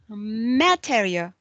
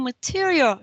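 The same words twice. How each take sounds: First: Said with an Indonesian English accent. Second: Said with a standard English pronunciation. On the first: "she says material" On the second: "Instead of saying material"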